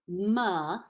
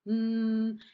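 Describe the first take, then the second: First: The consonant is followed by an added uh vowel. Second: The consonant is said alone with no vowel. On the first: The speaker calls it wrong. "If I teach the sound represented by the letter M as M" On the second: The speaker calls it right. "instead of M"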